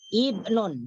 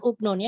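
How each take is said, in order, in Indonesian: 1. Kata ini diawali vokal i. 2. Kata ini diawali vokal u. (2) "bukan ubnun ya"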